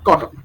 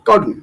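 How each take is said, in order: First: The t is fully released with clear air. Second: The t is held back with air stopped. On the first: The speaker calls it wrong. "নট" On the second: The speaker calls it right. "প্রেস করে কিছুটা বাতাস মুখের ভিতরে রেখে উচ্চারণ করতে হয়"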